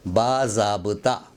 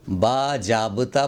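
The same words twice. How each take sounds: First: बाज़ाब्ता with a clear z, "baa-zaab-ta"; correct pronunciation. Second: बाजाब्ता with a j, "baa-jaab-ta"; wrong pronunciation. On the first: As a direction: say बाज़ाब्ता with z, not j. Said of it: "इसका तलफ़ुज़ है". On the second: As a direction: say बाजाब्ता with j instead of z. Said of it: "बाजाब्ता गलत है". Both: Shown as a demonstration.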